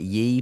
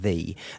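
First: The word starts with a y sound. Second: The word starts with a th sound. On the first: The speaker calls it wrong. "everyone pronounces it Ye, but it's not" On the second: The speaker calls it right. "you do still pronounce it the"

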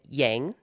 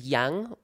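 First: It is pronounced with an English sound. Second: It is pronounced with a Mandarin sound.

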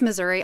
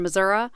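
First: The name is said in a plain, standard way. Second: The name is said in a folksy, homey way. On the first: "It is Missouri" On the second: "they get real folksy and they say"

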